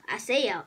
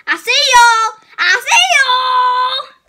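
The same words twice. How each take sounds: First: Quiet, low taunt; soft creepy tease. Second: Menacing shout. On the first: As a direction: say it softly like a lurking hunter. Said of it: "soft take of same line". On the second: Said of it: "louder take of same line". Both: Pretend.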